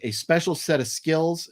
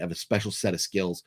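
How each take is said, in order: First: It is said in his normal speaking voice. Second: It is said as a Taken movie impression.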